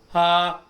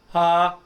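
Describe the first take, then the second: Both takes have the same delivery.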